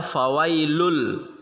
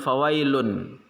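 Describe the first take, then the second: First: The final n merges into an l sound. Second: The final n is pronounced clearly. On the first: The speaker calls it right. "Maka dibaca fawailul" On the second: The speaker calls it wrong. "bukan fawailun"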